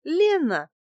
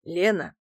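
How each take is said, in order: First: High, lilting woman's answer; coy fib. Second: Man's voice. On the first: Woman gives the man a false name, high coy voice. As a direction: offer the name sweetly. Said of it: "соврала я". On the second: Man takes up the name to proposition her, casual male voice. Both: A narrator's reading.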